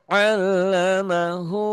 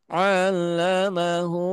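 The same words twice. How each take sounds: No difference in how they are said.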